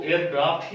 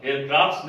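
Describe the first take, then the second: First: एयरक्राफ्ट ending on t; correct unchanged form. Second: एयरक्राफ्ट्स with an added s; mistaken plural. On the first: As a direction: say एयरक्राफ्ट without a plural s. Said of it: "एयरक्राफ्ट ही होगा". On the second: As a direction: tack an s onto एयरक्राफ्ट्स. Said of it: "एयरक्राफ्ट्स नहीं बोलते हैं". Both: Shown as a demonstration.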